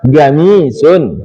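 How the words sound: The word begins with a g sound. This is how Saudis say it.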